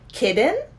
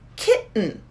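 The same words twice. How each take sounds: First: The middle T sound is clearly pronounced. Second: The middle T sound is dropped completely. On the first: The speaker calls it wrong. "it sounds a little bit too much like like child, like kid" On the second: The speaker calls it right. "there's no T, there's no D sound, nothing"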